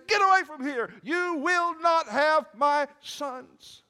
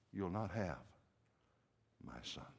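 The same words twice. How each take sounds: First: Very high, full-voiced defiant shout; fierce shout. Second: Low, soft and halting; quiet defiance. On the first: Rizpah guarding her sons' corpses from animals, fierce shout. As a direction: shout the animals off, stretching the last words. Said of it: "she shouts at those animals". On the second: Acted. Rizpah warding buzzards from her sons, quiet defiance. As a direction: let the vow sink almost to nothing.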